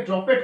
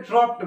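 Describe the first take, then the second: First: ড্রপেড with an extra syllable, "drop-ped"; former mispronunciation. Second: ড্রপড as one syllable, "dropt"; no vowel before the final sound of ড্রপড; correct pronunciation. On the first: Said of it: "আমি এটাকে ড্রপেড করে দিতাম". (ড্রপেড, "ড্রপ-পেড" দুই ভাগে ভুল উচ্চারণ) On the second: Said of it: "এটাকে ড্রপড বলা হয়". (ড্রপড, এক টানে "ড্রপ্ট", মাঝে এ-কার নেই) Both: Shown as a demonstration.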